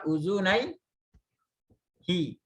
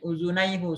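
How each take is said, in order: First: The word ends with a 'hi' sound. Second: The word ends with a 'hu' sound. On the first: The speaker calls it right. "Tapi dibaca apa? Uzunai hi. hu-nya jadi hi" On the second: The speaker calls it wrong.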